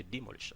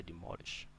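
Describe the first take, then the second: First: Demolish with DE stressed at the front; wrong stress. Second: Demolish with stress on MOL; demolish, second syllable carrying the stress; correct stress. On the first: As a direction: mispronounce demolish, leaning on the first syllable. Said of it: "I don't say demolish". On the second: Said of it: "I say demolish". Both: Shown as a demonstration.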